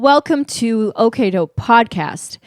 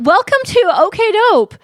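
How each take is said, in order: First: It sounds formal and corporate. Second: It sounds excited, like greeting an old friend.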